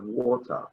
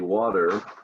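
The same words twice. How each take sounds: First: It is said in a British accent. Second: It is said in a General American accent. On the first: "the British would ask you for a glass of water" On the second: "you and I say water"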